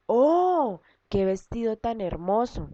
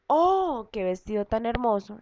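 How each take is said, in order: First: Oh alto y maravillado, como quien ve algo precioso; asombro. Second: Un oh muy agudo, luego la frase maravillada; exclamación de asombro. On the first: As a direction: exclama con asombro ante el vestido. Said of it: "Estamos expresando asombro". (con asombro y emoción) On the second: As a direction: muestra la exclamación a los alumnos. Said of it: "hacemos uso de los signos de admiración o exclamación". (exclamando con asombro) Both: Shown as a demonstration.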